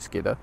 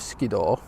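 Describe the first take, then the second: First: The name is said the local way. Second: The name is said the common way. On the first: The speaker is a local. "if you're a local, you'll call it Skidder" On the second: The speaker is not a local. "most people will know it as Skiddaw"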